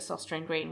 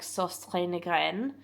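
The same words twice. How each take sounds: First: The name is read with plain English sounds. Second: The name has its original, non-English pronunciation. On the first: The speaker calls it wrong. "would not be right" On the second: The speaker calls it right. "you say it like Sostrine Green"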